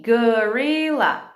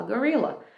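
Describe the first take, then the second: First: GORILLA very slow, drawn out as go-ri-lla; syllable by syllable. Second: Said in the usual way. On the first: Shown as a demonstration. Teacher giving a word to blend, slow syllables. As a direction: stretch GORILLA into separate syllables. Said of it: "Depois você faz as sílabas". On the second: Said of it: "A criança junta e fala".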